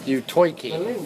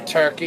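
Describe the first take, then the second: First: Turkey is said in a New Jersey accent. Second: Turkey is said in a plain general accent. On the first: The speaker calls it right. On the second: The speaker calls it wrong.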